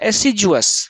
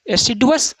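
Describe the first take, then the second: First: The middle consonant is a j sound. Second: The middle consonant is a plain d sound. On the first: This is the Western way of saying it. "डी को ज बना दिया" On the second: This is the Indian way of saying it. "एसिडुअस का डी है बीच में"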